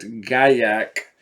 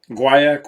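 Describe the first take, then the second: First: The word is pronounced the French way. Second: The word is pronounced the English way. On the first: "The French pronunciation is in fact Gaillac" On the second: "is the English pronunciation"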